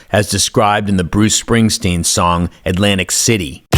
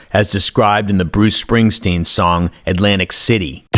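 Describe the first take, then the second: No difference in how they are said.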